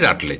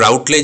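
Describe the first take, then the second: First: The first vowel is a plain, unglided vowel. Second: The first vowel glides like 'ow' in 'out'. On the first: The speaker calls it right. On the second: The speaker calls it wrong. "উচ্চারণটা রাউটলেজ নয়"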